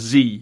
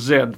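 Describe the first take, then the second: First: It is said the American way, 'zee'. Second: It is said the British way, 'zed'.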